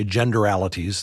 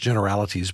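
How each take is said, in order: First: "generalities" said as "genderalities"; son's word genderalities. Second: Said in the usual way. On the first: Retold or imitated. Quoting the son's coinage, "generalities" pronounced "genderalities". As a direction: slip a D into "generalities", making "genderalities". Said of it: "as my son likes to say". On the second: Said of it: "These are gender-based generalities".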